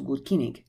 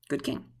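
First: The word for king has two syllables. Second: The word for king has one syllable. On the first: "when I said that was good kinning" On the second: "they might be saying that was a good king"

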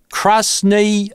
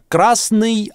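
First: It is said with an English accent. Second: It is said with a plain Russian accent. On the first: "Это с английским акцентом" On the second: "похоже на русское «ый»"

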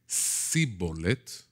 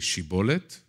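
First: The word begins with an 's' sound. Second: The word begins with an 'sh' sound. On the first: The speaker is not from the group. The speaker calls it wrong. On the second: The speaker belongs to the group. The speaker calls it right. "instead of shin"

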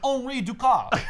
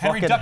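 First: The name is said with a French accent. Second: The name is said with an American accent. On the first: "that was a terrible French accent" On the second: "I'm an American, so I'm going to say it's Henry Duckard"

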